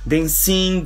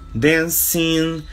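First: The final -ing ending is cut short. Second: The final -ing ending is stressed and drawn out. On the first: The speaker calls it wrong. "não fala dancing" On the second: The speaker calls it right. "A gente dá uma ênfase no finalzinho. Ele é mais prolongado"

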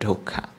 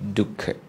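First: The word is said with a Burmese pronunciation. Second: The word is said with a Sri Lankan pronunciation. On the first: "In Burmese pronunciation it's called dukkha" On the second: "In Sri Lankan pronunciation is dukkha"

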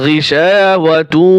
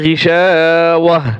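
First: The word ends with a 'tu' sound. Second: The word ends with an 'h' sound. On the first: The reader joins it to the next word. "আর যদি আমরা এখানে মিলিয়ে পড়ি... তু বলতে হবে" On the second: The reader stops at this word. "ওয়াকফ যদি করি তাহলে এখানে কি হবে, গিশাওয়াহ, এই গোলতা হা উচ্চারণ করব।"

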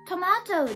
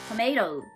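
First: It is said in a British accent. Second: It is said in an American accent. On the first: This is how the speaker was taught. The speaker calls it wrong. "私のイギリスっぽい発音" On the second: This is the form the critic demanded. The speaker calls it right. "アメリカ英語に直せ"

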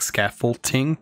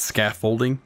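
First: The word is said with an added T sound. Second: The word is said without a T sound. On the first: "I say a T in there, like scaffolding" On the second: "but it's scaffolding"

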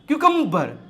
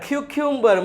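First: The second syllable sounds like 'kuh'. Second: The second syllable sounds like 'kyu'. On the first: The speaker calls it right. "એને વચાય ક્યુકમ્બર" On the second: The speaker calls it wrong. "ક્યુક્યુમ્બર મન પડે એમ વાંચતા હોય"

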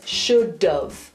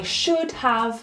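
First: The words are run together as one contraction. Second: Both words are said fully and separately. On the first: "he says should've" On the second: "instead of saying I should have"

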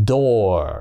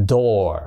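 Both takes have the same delivery.

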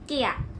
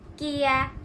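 First: The vowel is held briefly. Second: The vowel is held longer. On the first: "단모음은" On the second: "장음은"

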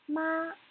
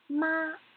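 First: The pitch stays high and level. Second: The pitch stays high and level.

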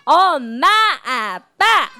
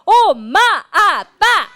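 First: It is said at a normal volume. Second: It is said at a loud volume.

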